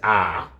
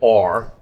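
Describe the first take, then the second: First: The R is said in a nasal Australian accent. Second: The R is said in a North American accent. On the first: "Australian says R, probably very nasal" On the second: "North Americans say R"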